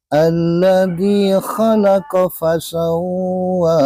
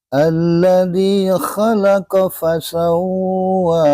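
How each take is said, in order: First: The 'qa' vowel is kept short. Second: The 'qa' vowel is kept short.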